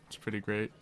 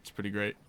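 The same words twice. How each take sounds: The two takes are said the same way.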